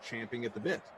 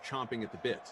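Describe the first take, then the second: First: The verb is said with an 'a' vowel, champing. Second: The verb is said with an 'o' vowel, chomping. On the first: This is the original form of the expression. The speaker calls it right. "the expression actually is champing at the bit" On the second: This is the version most people use. The speaker calls it wrong. "everyone says chomping at the bit"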